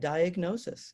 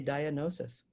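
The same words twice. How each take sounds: First: The g is pronounced as a hard sound. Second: The g is silent, like in gnosis. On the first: This is the usual pronunciation. "we pronounce that diagnosis" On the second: This follows the word's Greek roots. "we don't say diagnosis"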